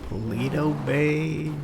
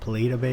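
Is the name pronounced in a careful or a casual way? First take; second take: careful; casual. First: The name is pronounced carefully and dramatically. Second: The name is pronounced in a casual, everyday way. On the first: This is the proper way to say the name. "I was trying to be dramatic and say it right" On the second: This is how the speaker normally says the name. "I call it Polito Bay usually"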